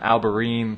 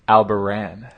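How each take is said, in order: First: The name ends with a 'reen' sound. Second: The name ends with a 'ran' sound. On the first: The speaker calls it wrong. "most people, they're like" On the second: The speaker calls it right. "actually Albaran"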